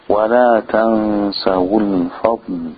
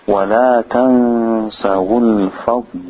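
No difference in how they are said.

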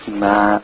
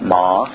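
First: The syllable is thin, with jaws nearly closed. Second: The syllable is full, with jaws open wide. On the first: The speaker calls it right. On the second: The speaker calls it wrong.

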